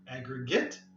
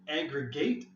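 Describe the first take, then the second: First: It is pronounced as the noun form. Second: It is pronounced as the verb form. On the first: It names a total or collection. "aggregate, noun" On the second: It names the act of combining. "Aggregate is the verb"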